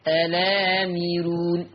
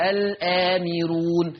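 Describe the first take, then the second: First: "الآمرون" slowly linked as "alaamiroon", long vowels held; hamza dropped. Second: Said in the usual way. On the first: Shown as a demonstration. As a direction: open the lam of "الآمرون" straight into a drawn-out aa. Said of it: "فتصير". ("الآمرون" ببطء مع نقل الفتحة إلى اللام: "أَلَامِرُون") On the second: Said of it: "شيلوا الهمزة".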